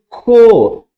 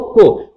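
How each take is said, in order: First: CO held long and high; teacher's loud, drawn-out CO as a prompt; emphatic, prolonged syllable. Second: Said in the usual way. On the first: Shown as a demonstration. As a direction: stretch the vowel of CO right out. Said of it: "repetir enfaticamente". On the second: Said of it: "Ela, C".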